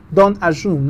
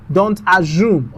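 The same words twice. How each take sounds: First: "Don't" hit hard; firm warning. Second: "assume" drawn out and falling; warning. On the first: Teacher repeats warning, punching "Don't". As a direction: stress on DON'T. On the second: Teacher warns students, leaning on "assume". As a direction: stress on assume. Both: Shown as a demonstration.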